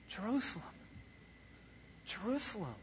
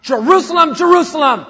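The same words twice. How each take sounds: First: Much softer, breathy-quiet grieving call; sad lament. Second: Much louder, higher booming shout; thundering call. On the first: Acted. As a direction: mourn the city tenderly. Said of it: "It's sadness". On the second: Shown as a demonstration. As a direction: roar it like thunder. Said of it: "It's not that".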